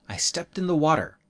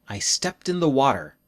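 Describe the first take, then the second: No difference in how they are said.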